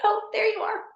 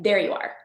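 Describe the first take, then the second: First: Much higher, a delighted gasp of recognition; delighted discovery. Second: Said in the usual way. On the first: Real, not acted. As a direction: greet the cat like a long-lost friend. Meeting her cat in van.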